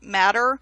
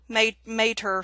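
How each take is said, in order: First: The first vowel is short, like in 'cat'. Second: The first vowel is long, like in 'day'. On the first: This is the pronunciation commonly heard. "I've always heard it called matter" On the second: This is the pronunciation the book gives. "showing the pronunciation as mater"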